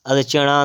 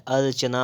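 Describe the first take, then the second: First: अर्चना ending in retroflex ṇā; wrong pronunciation. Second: अर्चना ending in dental nā; plain n at the end of अर्चना; correct pronunciation. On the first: Teacher showing the error, अर्चना with retroflex ṇ. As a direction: curl the tongue on the last syllable of अर्चना. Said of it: "अर्चना नहीं होता है". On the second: Teacher correcting, अर्चना with dental n. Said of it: "अर्चना होता है". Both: Shown as a demonstration.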